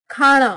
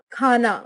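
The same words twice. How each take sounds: First: Retroflex N in खाना; Haryanvi pronunciation. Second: Said in the usual way. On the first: Shown as a demonstration. Teacher showing Haryanvi speech, खाना with ण for न. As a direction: say खाना with a curled-tongue ण. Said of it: "Haryanvi उच्चारण". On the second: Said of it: "Hindi उच्चारण".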